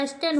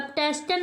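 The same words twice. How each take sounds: First: एस्टन without an opening T; corrected pronunciation. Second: टेस्टन with the T sounded; wrong pronunciation. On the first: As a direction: start एस्टन straight on the vowel. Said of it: "एस्टन होता है". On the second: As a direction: sound a clear T after the S in टेस्टन. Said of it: "टेस्टन नहीं होता". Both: Shown as a demonstration.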